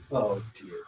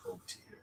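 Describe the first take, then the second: First: Said in the usual way. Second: Breathy whisper of dismay. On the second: Pretend. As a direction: whisper it to yourself. Repeated Oh dear, then whispered.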